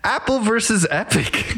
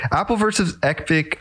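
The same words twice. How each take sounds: First: Stiff robotic announcer voice. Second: Said in the usual way. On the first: Pretend. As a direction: say it like a robot, high pitched. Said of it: "introducing a new topic in a robot voice". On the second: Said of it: "I'm just gonna move on like nothing happened".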